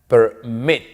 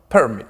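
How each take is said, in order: First: The stress is on the last syllable. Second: The stress is on the first syllable. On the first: The speaker calls it right. "la mayor fuerza de voz está al final" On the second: The speaker calls it wrong.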